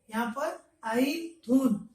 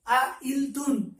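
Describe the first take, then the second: First: आइल थून said as one flowing word, a little slowly; correct joined reading. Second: आ इल थून with आ and इल pulled apart, slowly; wrong split reading. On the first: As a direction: say आइल थून smoothly, no break. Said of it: "तीन word को हम लोग आइल थून". (सही उच्चारण: आइल थून को जोड़कर एक साथ बोलना) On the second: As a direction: say आ इल थून the wrong way, breaking the word. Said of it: "यहाँ पर ऐसा नहीं पढ़ना है कि आ इल थून". (गलत उच्चारण: आ इल थून को तोड़कर धीरे बोलना) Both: Shown as a demonstration.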